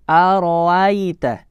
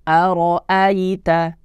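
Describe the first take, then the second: The two takes are said the same way.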